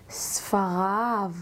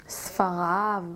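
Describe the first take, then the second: No difference in how they are said.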